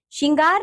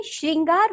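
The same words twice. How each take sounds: First: "श्रृंगार" with the r dropped, as "shingar"; wrong pronunciation. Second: Said in the usual way. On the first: Shown as a demonstration. Teacher showing pupils the error, "श्रृंगार" mispronounced as "shingar". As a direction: say "श्रृंगार" as plain "shin-gaar". नहीं. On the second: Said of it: "श्रृंगार होता है".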